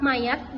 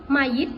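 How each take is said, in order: First: The last syllable has the vowel a. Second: The last syllable has the vowel i. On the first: The speaker calls it right. "lafalan bakunya" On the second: The speaker calls it wrong. "fonem A dilafalkan menjadi I"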